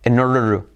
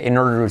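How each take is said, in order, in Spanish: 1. Cada palabra se dice completa y por separado. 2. Las palabras se reducen y se pegan unas con otras.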